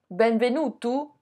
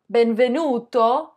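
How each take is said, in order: First: Benvenuto ending in a U sound, benvenutu; Sicilian benvenutu. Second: Benvenuto with a clear final O; Italian benvenuto. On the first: Vlogger showing the Sicilian form, benvenuto ending in U. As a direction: swap the final O of benvenuto for U. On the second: Vlogger contrasting Italian with Sicilian, benvenuto ending in O. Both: Shown as a demonstration. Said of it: "le O devient un U".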